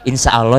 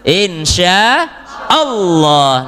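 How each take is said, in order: First: The l sound is single and unlinked. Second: The l sound is doubled and linked. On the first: The speaker calls it wrong. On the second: The speaker calls it right. "nempel Bu"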